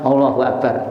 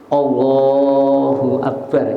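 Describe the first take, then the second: First: It is said hastily without solemn, reverent feeling. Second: It is said slowly with solemn, reverent feeling. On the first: The words are said without real respect. The speaker calls it wrong. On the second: The words come sincerely from the heart. The speaker calls it right. "Ya kalimatnya yang khusyuk begitu"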